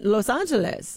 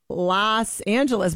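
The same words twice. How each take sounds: First: Los Angeles with "Los" said like "lohs"; long O in the "Los" of Los Angeles; careful "Lohs Angeles"; spelled-out pronunciation. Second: Los Angeles with "Los" said like "lahss"; everyday "Lahss Angeles"; common American pronunciation. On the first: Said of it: "should not pronounce L O S the same". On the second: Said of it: "It's not Los Angeles". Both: Shown as a demonstration.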